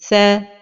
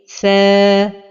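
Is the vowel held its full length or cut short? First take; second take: cut short; full length. First: The long vowel is not held its full length. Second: The long vowel is held its full length. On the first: The speaker calls it wrong. "de ne pas donner le temps exact de la prolongation" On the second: The speaker calls it right. "la prononciation correcte est"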